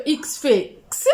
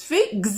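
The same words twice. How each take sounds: First: Second X sounded as "ks". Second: X sounded as voiced "gz". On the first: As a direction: say the last X as unvoiced "ks". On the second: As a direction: say "gz" for the X after fait. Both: Shown as a demonstration. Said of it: "selon la prononciation".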